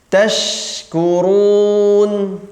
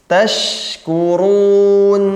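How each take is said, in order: The two takes are said the same way.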